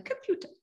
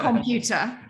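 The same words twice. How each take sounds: First: Computer in a clipped posh voice. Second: Computer drawn out slowly with a northern twang, with a laugh; Huddersfield computer. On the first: Contrasting the posh computer with his own. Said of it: "rather than computer". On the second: Laughing while showing his northern computer. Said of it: "still have a twang". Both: Shown as a demonstration.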